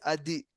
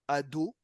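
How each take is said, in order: First: The word ends with an E vowel. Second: The word ends with an O vowel. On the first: The speaker calls it wrong. "c'est pas le nom de Dieu" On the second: The speaker calls it right. "au lieu de dire le nom d'Hachem comme il faut"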